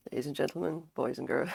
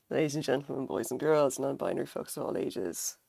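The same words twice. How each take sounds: First: Raspy announcer greeting; hoarse sick voice. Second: Raspy sick voice, grand greeting; hoarse voice. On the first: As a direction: croak it out grandly. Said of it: "I sound hilarious". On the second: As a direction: boom it out hoarsely. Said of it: "I sound a bit like Darth Vader". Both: Real, not acted.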